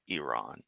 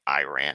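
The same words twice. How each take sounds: First: The name is said in a polished way. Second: The name is said in a rustic way. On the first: The speaker calls it right. "my understanding is is the correct way" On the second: The speaker calls it wrong.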